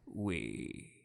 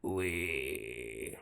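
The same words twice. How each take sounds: First: It is said with a smooth, rounded voice. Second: It is said with a gravelly, grainy voice.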